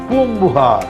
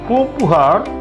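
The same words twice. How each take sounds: First: The sound after the nasal is a B. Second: The sound after the nasal is a P. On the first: The speaker sounds like a native speaker. The speaker calls it right. "after a nasal, if a P is used, it should be pronounced as B" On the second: The speaker sounds like an outsider. The speaker calls it wrong. "if you say Poompuhar, the Tamil speaker will look at you and say, he is an outsider"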